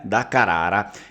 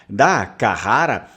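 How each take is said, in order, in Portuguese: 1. É dita com pronúncia vêneta. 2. É dita com pronúncia portuguesa. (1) "Se a gente for ver a pronúncia vêneta" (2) "Carrara é uma pronúncia portuguesa"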